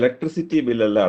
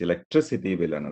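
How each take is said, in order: First: The stress is not on the third syllable. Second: The stress is on the third syllable. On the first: The speaker calls it wrong. "ബില്ലല്ല" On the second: The speaker calls it right. "It's"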